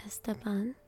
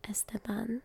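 No difference in how they are said.

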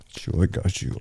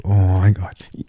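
First: Reassuring whisper. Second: Said in the usual way. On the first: Acted. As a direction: hush and reassure her. Soothing her, then repeated aloud.

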